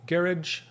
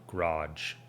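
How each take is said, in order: First: GARAGE as "GARR-idge", pitched high; high British GARR-idge in GARAGE. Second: GARAGE as "g'RAHJ", slow and lower; slow American GARAGE, stressed last. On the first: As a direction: stress the first syllable of GARAGE. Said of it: "the right way of putting it". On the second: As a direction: draw out the AH in GARAGE. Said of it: "how we say it". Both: Shown as a demonstration.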